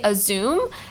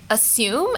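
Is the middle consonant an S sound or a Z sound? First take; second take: Z sound; S sound. First: The middle consonant is a buzzing Z sound. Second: The middle consonant is a hissing S sound. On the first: The speaker calls it wrong. "I used to say assume ... There is no Z" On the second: The speaker calls it right. "one word or like a pronunciation word that I got corrected on"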